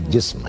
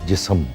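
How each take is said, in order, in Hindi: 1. s और m बिना किसी स्वर के जुड़ते हैं। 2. s और m के बीच एक छोटा स्वर डाला जाता है। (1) "नहीं इस पे जज़्म होता है, ये जिस्म है" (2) "तो वो कहता है जी जिस्म"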